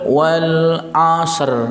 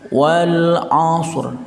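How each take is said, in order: First: The final consonants are not joined directly together. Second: The final consonants are joined directly together. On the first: The speaker calls it wrong. "Jadi enggak boleh" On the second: The speaker calls it right. "Jadi pengucapannya itu langsung"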